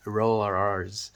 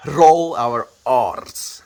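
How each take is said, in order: First: Said in the usual way. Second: Very slow, louder Afrikaans accent with rolled R's; heavy Afrikaans accent, each R rolled. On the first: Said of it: "That's how I would say it". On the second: Shown as a demonstration. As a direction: lay the Afrikaans accent on thick. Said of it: "if I'm completely Afrikaansing it".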